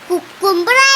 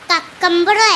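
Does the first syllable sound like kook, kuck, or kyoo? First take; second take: kook; kuck. First: The first syllable sounds like kook. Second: The first syllable sounds like kuck. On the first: "കുക്കുംബർ അല്ല" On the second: "കക്കമ്പറും അല്ല"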